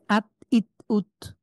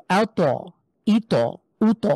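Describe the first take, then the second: First: আত, ইত, উত stopped short on the ত; no qalqalah bounce. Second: আ, ত, ই, ত, উ, ত with each ত pushed out into an echo; qalqalah bounce. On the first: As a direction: hold back the final ত with no echo. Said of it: "আমি যদি এটা না করি". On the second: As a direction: bounce the ত into a short extra vowel. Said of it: "ধাক্কা দিলে". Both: Shown as a demonstration.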